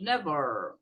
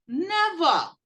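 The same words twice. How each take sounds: First: Never said low and relaxed, r dropped, as "neva"; "never" casual, sliding down to "neva"; everyday never. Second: Never with the final r dropped, said as "neva"; British never. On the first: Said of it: "uma pronúncia um pouco diferente". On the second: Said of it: "muitos deles falam never". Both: Shown as a demonstration.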